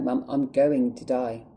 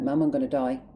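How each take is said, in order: First: "going to die" drawn out slowly, stressed; slow emphatic plea. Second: Upset, insistent plea to mum; upset retold plea. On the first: Retold or imitated. Telling mum from the hospital bed, slow emphatic "going to die". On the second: Telling mum from the hospital bed, upset plea. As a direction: retell the plea, getting upset. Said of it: "sorry, I'm getting upset".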